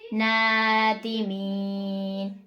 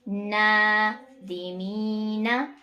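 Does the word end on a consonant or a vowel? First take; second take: consonant; vowel. First: The word ends on a consonant, vowel dropped. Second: The word ends with a final vowel sound. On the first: The reading stops at this word. "अब नीचे हम स्टॉप करेंगे" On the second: The reading continues without stopping. "यहाँ पर हमने स्टॉप के बगैर पढ़ा"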